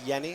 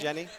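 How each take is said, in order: First: The name begins with a Y sound. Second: The name begins with a J sound. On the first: The speaker calls it right. "It is Yenny, I understand. Is that right?" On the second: The speaker calls it wrong.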